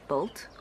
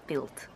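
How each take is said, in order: First: The vowel is said low in the mouth. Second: The vowel is said high in the mouth. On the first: The speaker calls it right. "quite low" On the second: The speaker calls it wrong. "the vowels too high"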